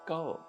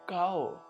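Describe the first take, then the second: First: The vowel is said with light emphasis. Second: The vowel is said with full emphasis. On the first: "cow is done by hypoemphasis of Kannada sign" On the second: "Pronunciation of cow is done by standard emphasis of Kannada sign"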